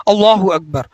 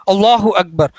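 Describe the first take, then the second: No difference in how they are said.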